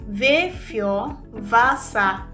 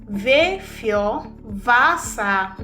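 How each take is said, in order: Both takes have the same delivery.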